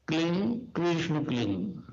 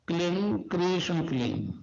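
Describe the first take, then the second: No difference in how they are said.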